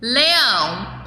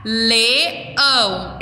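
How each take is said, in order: First: Said in the usual way. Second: LEÃO pulled apart as le, ão; split into syllables. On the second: Shown as a demonstration. Teacher separating syllables for children, split into syllables. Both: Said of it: "eu vou separar".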